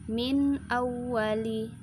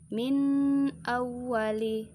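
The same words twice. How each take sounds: First: The n sound is clear and short. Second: The n sound is stretched out long. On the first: The speaker calls it right. "harus dibaca jelas seperti ini" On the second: The speaker calls it wrong. "Tidak boleh dibaca panjang. Contoh seperti ini"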